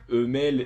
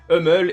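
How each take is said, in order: First: Hummel is pronounced the French way. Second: Hummel is pronounced the American English way. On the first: "dans cet épisode ils disent Hummel, alors je vais aussi le prononcer comme ça" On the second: "je le prononçais à l'américaine"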